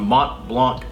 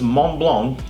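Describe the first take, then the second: First: The final T and C sounds are pronounced. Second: The final T and C sounds are silent. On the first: The speaker calls it wrong. "I actually just mispronounced that" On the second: The speaker calls it right. "the T in the Mont and the C in the Blanc, they are silent"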